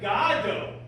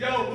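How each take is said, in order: First: The first syllable sounds like the word 'God'. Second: The first syllable does not sound like 'God'.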